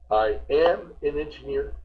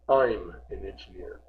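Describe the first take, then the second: First: 'I am' is said as two full words. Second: 'I am' is contracted to one syllable.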